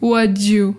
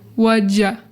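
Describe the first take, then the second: First: The last word is a full 'you'. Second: The last word is reduced to 'ya'. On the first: "sometimes we say the you" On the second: "sometimes we say the ya"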